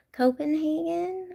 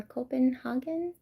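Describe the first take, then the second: First: Copenhagen with HAY in the third syllable; standard English pronunciation. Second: Copenhagen with HAH in the third syllable; alternative pronunciation. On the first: Checking the city's name with chat, Copenhagen said as co-pen-HAY-gen. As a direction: say Copenhagen with a long 'ay' in 'hagen'. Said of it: "Is that how you say it?". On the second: Asking chat how it's said, Copenhagen tried as co-pen-HAH-gen. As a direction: say Copenhagen with an open 'ah' in 'hagen'. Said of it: "Like Hagen?". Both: Shown as a demonstration.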